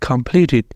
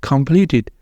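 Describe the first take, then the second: Both takes have the same delivery.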